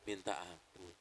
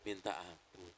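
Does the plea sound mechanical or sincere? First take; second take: sincere; sincere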